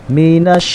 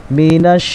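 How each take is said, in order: The two takes are said the same way.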